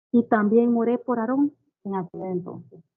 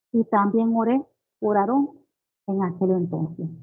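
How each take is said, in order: Both takes have the same delivery.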